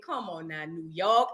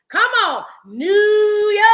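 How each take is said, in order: First: Low, soft exasperated; quiet groan. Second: High sung "Come on, New York"; sung cheer. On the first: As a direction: sigh it out low. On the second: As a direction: sing it out loud. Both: Retold or imitated. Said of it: "I said".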